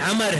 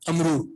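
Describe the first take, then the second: First: The name ends on the consonant 'r'. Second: The name ends with a long 'oo' vowel. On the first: The speaker calls it right. "Abdullah बिन अमर है, अमरू नहीं है" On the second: The speaker calls it wrong. "जिसको हम बचपन में अमरू पढ़ते रहे हैं"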